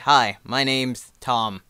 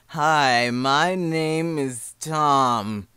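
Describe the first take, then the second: First: It is said at a normal pace. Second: It is dragged out very slowly.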